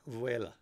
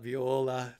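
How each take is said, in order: First: It is said as vuela. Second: It is said as viola. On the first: The speaker calls it right. "no, Vuela" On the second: The speaker calls it wrong. "not Viola"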